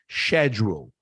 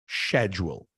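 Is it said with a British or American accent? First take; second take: British; British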